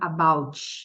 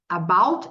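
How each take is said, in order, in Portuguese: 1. O T final vira um som extra de 'ch'. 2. O T final é suave, sem som extra.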